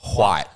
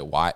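First: The word starts with a breathy hw sound. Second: The word starts with a plain w sound. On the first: "they pronounce yeah. that H" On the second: "When they don't say white"

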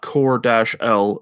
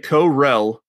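First: The name ends in a separate 'El' syllable. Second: The name ends in a blended 'rel' sound. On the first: The speaker calls it wrong. "It's not Kor-L. She's not of House L" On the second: The speaker calls it right. "We need to say Korel"

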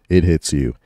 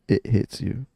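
First: It is said in a dramatic announcer voice. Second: It is said in a normal voice.

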